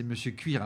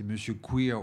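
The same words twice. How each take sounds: First: Said in the usual way. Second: "Queer" said the English way, kwir not kɥir; "Queer" as in English, to play on "Cuir"; pun on Queer. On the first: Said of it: "c'est Monsieur Queer aussi". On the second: Shown as a demonstration. Reviewer punning on the film title, saying "Queer" the English way. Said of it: "j'ai pas dit monsieur".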